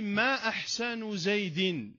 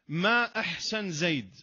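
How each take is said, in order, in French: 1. Les mots se terminent par des voyelles finales ajoutées. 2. Les mots se terminent sans voyelle finale.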